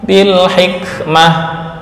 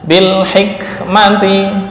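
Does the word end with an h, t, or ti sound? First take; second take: h; ti. First: The word ends with a soft h sound. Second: The word ends with a full -ti syllable. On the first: The reader stops on this word. "mengganti tak dengan ha" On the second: The reading continues without a stop. "jika akhirnya berupa hak taknis"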